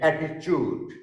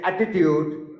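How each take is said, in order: First: It is said in an Indian accent. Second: It is said in a British accent. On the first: The speaker calls it wrong. "but Indian people say attitude" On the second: The speaker calls it right. "British people say attitude"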